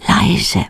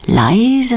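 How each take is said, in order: First: Breathy unvoiced whisper on Leise. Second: Said in the usual way. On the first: Shown as a demonstration. Narrator whispering Leise to the listener.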